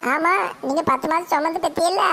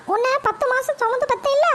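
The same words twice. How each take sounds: First: Said in the usual way. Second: High, mocking mother's taunt; mother's sarcastic voice. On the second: Mother taunts her son, high and sarcastic. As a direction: pitch it up and sneer as the mother.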